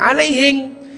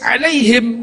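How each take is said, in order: First: It ends with an 'ng' sound, in a Bugis accent. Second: It ends with an 'm' sound, in standard Arabic.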